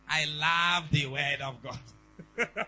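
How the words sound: It is said in an imitated Ghanaian accent.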